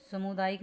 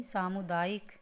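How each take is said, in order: First: सामुदायिक said as "samudaayik"; short first "a" in सामुदायिक; wrong pronunciation. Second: सामुदायिक said as "saamudaayik"; long first "aa" in सामुदायिक; correct pronunciation. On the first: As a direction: misread सामुदायिक as sa-mu-daa-yik. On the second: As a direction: clear saa-mu-daa-yik for सामुदायिक. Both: Shown as a demonstration. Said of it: "सामुदायिक नहीं".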